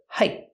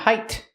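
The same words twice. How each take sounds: First: The final T is a stop, cut off. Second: The final T is fully released. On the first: The speaker calls it right. "pronounced as a stop T" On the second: The speaker calls it wrong. "Not height"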